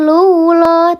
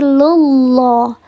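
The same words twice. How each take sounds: First: The L is thin, with the tongue kept low. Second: The L is heavy, with the tongue back raised. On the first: The speaker calls it wrong. "Bukan lullah" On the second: The speaker calls it right. "tapi lullah. Lullah, diangkat pangkal lidahnya"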